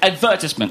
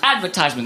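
First: The stress falls on the second syllable, 'ver'. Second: The stress falls on the third syllable, 'tise'. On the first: The speaker calls it right. "The correct British way is, in fact, advertisement" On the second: The speaker calls it wrong. "we think it's pronounced advertisement. That's incorrect"

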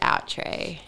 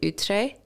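First: The name is said with an Australian pronunciation. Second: The name is said with a French pronunciation. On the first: "we've Australianized the name and we just pronounce it" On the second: "It's actually a French word"

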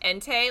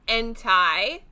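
First: The final syllable rhymes with 'day'. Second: The final syllable rhymes with 'eye'. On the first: "I can accept Entei. Like, I do think that that's right" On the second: "I say Entei because that EI. My last name is German and has that EI in it"

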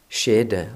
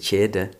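First: The word begins with a sj-sound. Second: The word begins with a kj-sound. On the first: "noen sier skjede" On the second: "andre sier kjede"

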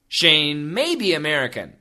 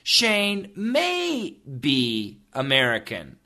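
First: The sentence is said at a fast pace. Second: The sentence is said at a slower pace.

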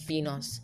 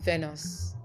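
First: The first vowel sounds like 'ee'. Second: The first vowel sounds like 'eh'. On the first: The speaker calls it right. "It's pronounced as Venus" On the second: The speaker calls it wrong. "Venus is wrong"

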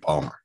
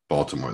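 First: The name is said in a clipped local form. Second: The name is said in its full standard form. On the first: The speaker calls it right. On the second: The speaker calls it wrong.

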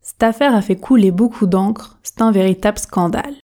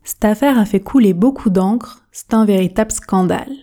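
The two takes are said the same way.

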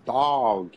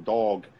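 First: The vowel is drawn out and long. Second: The vowel is short and rounded. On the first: "but you say dog" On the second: "we kind of round our vowels"

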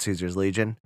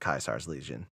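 First: Caesar starts with a soft S sound. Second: Caesar starts with a hard K sound. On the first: This is how outsiders say the name. The speaker calls it wrong. "the inhabitants of the wasteland still call it Caesar's Legion" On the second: This is how the group itself says the name. The speaker calls it right. "the actual Legion calls it Caesar's Legion"

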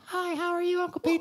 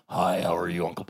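First: A high, cheerful child's voice. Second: A deep, sullen teenage voice.

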